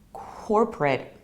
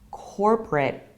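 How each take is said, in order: First: It is said in an American accent. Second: The same.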